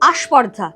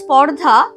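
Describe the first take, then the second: First: An extra vowel is added before the cluster. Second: The word begins directly with a consonant cluster. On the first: "হয়ে গেল আস্পর্ধা" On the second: "ছিল স্পর্ধা"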